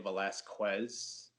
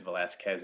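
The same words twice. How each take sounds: First: "Velasquez" slowly, ending "kwez"; "Velasquez" said as "Velas-kwez"; common mispronunciation. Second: "Velasquez" ending "kez", no w; correct pronunciation. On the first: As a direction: sound a w in the last syllable of "Velasquez". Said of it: "then I get Velasquez". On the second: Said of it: "and it's Velasquez, exactly how". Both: Shown as a demonstration.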